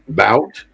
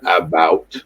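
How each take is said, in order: First: The first syllable is dropped. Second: Both syllables are pronounced. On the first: This is how the speaker's community says it. "bout instead of about" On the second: This is the standard form expected by others. "instead of"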